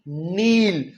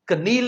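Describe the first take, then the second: First: The word starts directly with an n sound. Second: The word starts with a pronounced k sound. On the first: The speaker calls it right. "के के बाद N आ जाए तो अक्सर हम के नहीं बोलते" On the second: The speaker calls it wrong. "कनील नहीं कहना"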